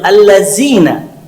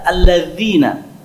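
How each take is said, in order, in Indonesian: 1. Huruf tengahnya adalah bunyi z yang bergetar. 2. Huruf tengahnya adalah bunyi dh yang lembut. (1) "Kebanyakan orang mengucapkan huruf zal itu dengan huruf zai" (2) "ini yang betul. Ketika mengucapkan huruf zal, kita mengeluarkan sedikit lidah kita"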